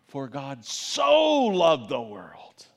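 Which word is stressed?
so. The word so carries the stress. The focus is on how much the world was loved. "your mind's thinking about how he loved the world, so loved the world"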